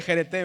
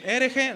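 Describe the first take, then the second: First: "jerete" said loud, ending in "te"; correct word demo. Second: "Hereje" blurted high and loud; wrong word demo. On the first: Teacher tells them what to say instead, "jerete" loud and clear. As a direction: give "jerete" firmly as the correction. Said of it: "Dígale jerete". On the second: Teacher mimics people mis-saying it to a neighbour, "Hereje" high and loud. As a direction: call out "Hereje" as the mistaken word. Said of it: "no le diga hereje". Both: Shown as a demonstration.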